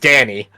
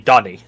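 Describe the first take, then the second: First: The first vowel sounds like the vowel in 'cat'. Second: The first vowel sounds like the vowel in 'father'. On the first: This is how a character says the name. The speaker calls it wrong. "really the Freddy says Danny" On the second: This is the technically correct pronunciation. The speaker calls it right. "The right pronunciation would technically be Donny"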